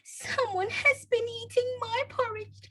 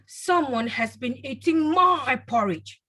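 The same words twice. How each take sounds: First: The voice sounds like sobbing. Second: The voice is deep and loud. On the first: A small child is speaking. "in a sobbing voice" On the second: A father is speaking. "in a deep, loud voice"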